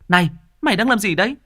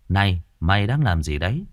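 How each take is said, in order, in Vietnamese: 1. Câu này được hét lên to, đầy năng lượng. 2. Câu này được đọc bình tĩnh, không hét. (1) "Khi mà cô Đào hét lên phải là" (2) "nó cũng có thể là nghe được, nhưng nó là đọc"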